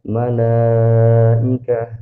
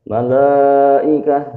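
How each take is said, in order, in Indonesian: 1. Bunyi l-nya tipis, suaranya diturunkan. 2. Bunyi l-nya tebal, suaranya dinaikkan. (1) "istifal itu dibaca ke bawah suaranya" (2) "itu dia lamnya tebal karena kita angkat ke atas"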